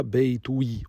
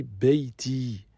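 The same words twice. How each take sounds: First: Beitoui, with the damma u kept before the i; wrong form Beitoui. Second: Beiti said slowly, ending straight on i with no ou; correct form Beiti. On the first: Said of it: "On dit pas Beitoui". (Beitoui prononcé avec le ou, forme fautive) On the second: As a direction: say Beiti slowly, the ya right after the t. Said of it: "on dit Beiti". (Beiti lentement, sans le ou) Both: Shown as a demonstration.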